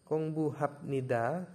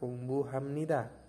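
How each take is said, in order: First: The consonant before nida is a b sound. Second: The consonant before nida is an m sound.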